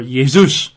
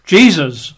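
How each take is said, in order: First: Jesus said yay-ZOOS; Jesus the Greek way, Y sound and long OO; Greek form. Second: Jesus said JEE-zuz; Jesus with an English J and weight on JEE; English form. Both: Shown as a demonstration. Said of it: "in the Greek".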